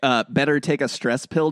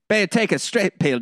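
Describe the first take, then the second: First: It is said in a standard accent. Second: It is said in a thick Cockney accent.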